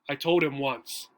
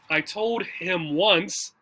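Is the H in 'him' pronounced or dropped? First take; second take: dropped; pronounced. First: The H is dropped in relaxed speech. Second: Every sound is said clearly, with the H. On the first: This is normal casual conversation. "it'll probably sound more like this" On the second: This is formal speech, as in a presentation. "how I said it in the beginning"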